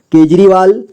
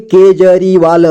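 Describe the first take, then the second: First: Said in the usual way. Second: Kejriwal slowly split into syllables. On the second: Shown as a demonstration. Teacher breaking down Kejriwal for learners, slowly syllable by syllable. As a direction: sound out Kejriwal slowly, piece by piece. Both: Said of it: "जोड़ जोड़ करके".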